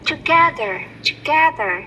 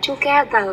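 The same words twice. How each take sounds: First: "together" with a clear voiced TH and stressed GE; correct TOGETHER. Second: "together" with the TH sound missed; mispronounced TOGETHER. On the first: Teacher models the correct word, clear TH in "together". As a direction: say "together", punching GE, voicing the TH. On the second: Teacher shows the student's error, faulty TH in "together". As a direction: say "together" without a proper TH. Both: Shown as a demonstration. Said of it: "chứ không phải là together".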